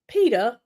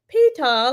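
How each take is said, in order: First: It is said in a standard accent. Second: It is said in a Southern accent.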